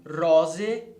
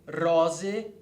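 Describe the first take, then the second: Both takes have the same delivery.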